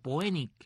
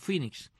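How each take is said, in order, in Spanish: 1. Se lee letra por letra, al estilo español. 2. Se dice con la pronunciación inglesa. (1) "cuando uno es niño, ve la palabra y dice, ¿y cómo se dice?" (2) "y se pronuncia Phoenix"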